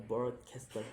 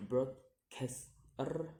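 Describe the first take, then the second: First: Said in the usual way. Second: "broadcaster" slowly in three beats, last rising; syllable by syllable. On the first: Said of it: "the ending er". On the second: Shown as a demonstration. Teacher demonstrating syllables, "broadcaster" slow and split. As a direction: pause between each syllable of "broadcaster". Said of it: "three syllables to say".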